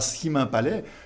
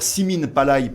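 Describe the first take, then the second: First: The name is said with standard French pronunciation. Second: The name is said with local Occitan pronunciation. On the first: The speaker calls it wrong. "et pas Simin Palais" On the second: The speaker calls it right. "moi je le dis encore Simin Palay"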